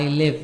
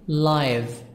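First: The word has a short vowel, like give. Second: The word has a long vowel, like five. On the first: It means to reside somewhere. "this verb, I live" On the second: It means happening now. "here it's an adjective. So we pronounce it live"

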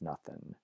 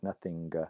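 First: The word ends in a plain n sound. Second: The word ends in ng followed by g. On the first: This is the later pronunciation. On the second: This is the older pronunciation.

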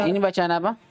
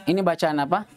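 Both takes have the same delivery.

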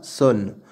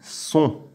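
First: The vowel is oral with a final n. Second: The vowel is nasal with no final n. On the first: The speaker calls it wrong. "pas sonne" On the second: The speaker calls it right. "on dit son"

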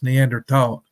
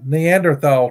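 First: The end is said with a plain t sound. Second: The end is said with a th sound. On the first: The speaker calls it right. "It's Neanderthal, tall, I think. But I think the H is silent" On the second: The speaker calls it wrong. "I'm not pronouncing Neanderthal correctly"

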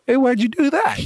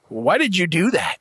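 First: It sounds friendly and casual. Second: It sounds aggressive and accusing.

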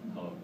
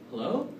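First: The pitch falls at the end. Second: The pitch rises at the end. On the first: "And then there's the rapport breaking" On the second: "rapport-seeking tonality, where the tonality will go up"

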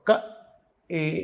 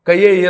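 First: The vowel is a plain 'e' from throat and palate. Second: The vowel starts with a 'y' glide, palatal only. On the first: The speaker calls it right. "క ఏ ఇక్కడ నుంచి పలకాలి, ఏ అనాలి" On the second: The speaker calls it wrong. "తాలువుతో చదువుతున్నాడు, ఏ అనే కంఠ తాలువుతో చదవకుండా"

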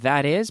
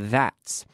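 First: It is said as two full words. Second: It is said as one contracted word. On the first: "Con la contracción, that is" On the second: "pero that's"

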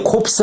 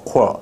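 First: The final p and s sounds are pronounced. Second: The final p and s sounds are silent. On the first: The speaker calls it wrong. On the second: The speaker calls it right.

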